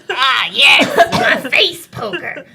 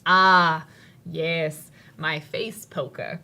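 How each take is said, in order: First: It is said in the goblin's put-on voice. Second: It is said in the speaker's normal voice.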